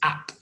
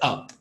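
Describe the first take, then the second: First: The vowel has an open London-like sound. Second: The vowel has a neutral, lightly accented sound. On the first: "it'll actually sound more like an ah in cat" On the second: "Now I say up"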